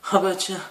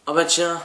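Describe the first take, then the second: First: Surprised again, pitched higher. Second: Surprised. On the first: Repeats after laugh. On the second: Sees huge monster. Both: Real, not acted.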